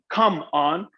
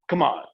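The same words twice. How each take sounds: First: Both words are said fully and separately. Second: The words are run together quickly.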